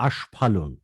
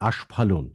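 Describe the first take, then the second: No difference in how they are said.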